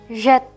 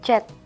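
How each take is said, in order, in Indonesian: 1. Dimulai dengan bunyi zh yang berdengung. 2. Dimulai dengan bunyi j biasa. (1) "dibaca jet seperti huruf Z" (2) "Bukan dibaca jet"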